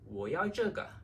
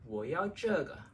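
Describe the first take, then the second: No difference in how they are said.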